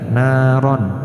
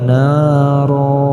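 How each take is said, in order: First: It ends in a short vowel plus n. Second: It ends in a long vowel without n. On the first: The reader continues without stopping. "jika kita baca secara harfiah naron pendek" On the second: The reader stops at this word. "jika berwakof maka ron di sini dimaknai atau dihukumi mad iwad"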